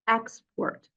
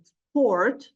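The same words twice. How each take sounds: First: The stress is on the first syllable. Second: The stress is on the second syllable. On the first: It is a noun naming a concept. "if you stress the first syllable, it will be a noun" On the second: It is a verb expressing an action. "if you move the stress to the second syllable"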